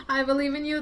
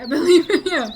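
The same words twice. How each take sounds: First: Said in the usual way. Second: Higher and much louder, laughing through it. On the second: Real, not acted. Cheering on a viewer fighting daydreaming, laughing. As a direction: burst out with delighted encouragement. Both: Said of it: "I believe in ya".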